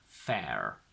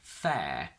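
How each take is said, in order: First: The word ends with an audible R sound. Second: The word ends without an R sound. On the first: The speaker calls it wrong. "not fair" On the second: The speaker calls it right. "we don't pronounce R when the R is before a vowel at the end of a word. We say fair"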